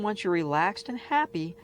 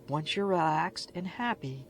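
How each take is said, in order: First: It is read at a normal, louder volume. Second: It is read more softly and gently.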